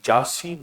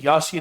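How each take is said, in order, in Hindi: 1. शब्द की शुरुआत j की आवाज़ से होती है। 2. शब्द की शुरुआत y की आवाज़ से होती है। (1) "जासीन नहीं है" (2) "यासीन है"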